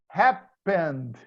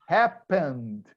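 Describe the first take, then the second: No difference in how they are said.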